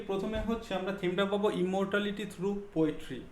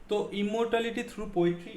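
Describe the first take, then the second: First: Said in the usual way. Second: "immortality through poetry" said slowly and higher, each word weighted; slow it right down and lift "immortality" so it sticks; slow emphasis. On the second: Shown as a demonstration. Teacher repeating the theme for students, slow and emphatic.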